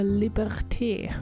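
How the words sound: The word is said with a French pronunciation.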